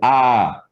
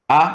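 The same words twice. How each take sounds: First: The vowel is stretched out in time. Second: The vowel is held very briefly. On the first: "Two of the same vowel means longer" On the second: "these single vowels are always very short"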